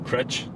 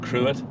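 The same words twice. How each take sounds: First: The name is said with the local Irish pronunciation. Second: The name is said with an American pronunciation. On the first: "But it's pronounced?" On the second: "But Americans pronounce it Cruit"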